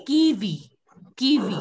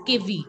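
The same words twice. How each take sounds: First: Kiwi with a long ee, "kee-vee"; correct pronunciation. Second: Kiwi with a short e in the first syllable, "keh-vee"; wrong kiwi, first vowel like "keh"; mispronunciation demo. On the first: Shown as a demonstration. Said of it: "It is kiwi". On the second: Retold or imitated. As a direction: imitate the class saying kiwi as "kevi". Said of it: "most of you were pronouncing it as".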